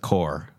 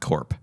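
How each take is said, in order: First: The word ends without a p sound. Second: The word ends with a p sound. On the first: The speaker calls it right. "You know that it's core" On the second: The speaker calls it wrong. "not corp"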